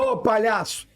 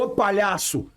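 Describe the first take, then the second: First: It is said in a playful, joking tone. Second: It is said in an insulting, offensive tone.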